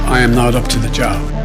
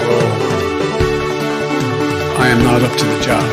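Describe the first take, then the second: First: It is said in a plain, sincere way. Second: It is said in a joking, exaggerated way.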